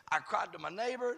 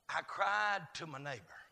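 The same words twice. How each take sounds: First: Brisker run through "cried to my neighbor"; quick recap. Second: Deliberate recital. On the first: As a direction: rattle it off as a list item, leaning on "neighbor". Quick recap of the same lines. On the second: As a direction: stretch "cried" and let the line fall. First, spaced-out recital of psalm contrast. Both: Real, not acted.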